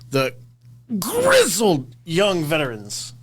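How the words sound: It is said grandly, like an announcer.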